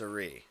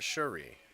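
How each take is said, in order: First: The name begins with an s sound. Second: The name begins with an sh sound. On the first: The speaker calls it right. "it's it's Suri" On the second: The speaker calls it wrong. "not Shuri"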